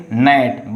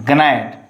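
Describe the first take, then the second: First: GNAT said slowly as "nat"; correct silent g. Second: GNAT with the g sounded, "guh-nat"; wrong pronunciation demo. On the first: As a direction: leave out the g, begin gnat on n. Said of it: "only say gnat". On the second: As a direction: slowly voice a hard g before the n in gnat. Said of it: "you don't say gnat". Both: Shown as a demonstration.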